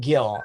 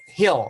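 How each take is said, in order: First: The name begins with a hard G sound. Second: The name begins with an H sound. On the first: This is how most people in this country say it. "everybody started saying Gil" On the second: This is how Filipinos and Spanish speakers say it. "I actually grew up with the name uh, Hill was my last name"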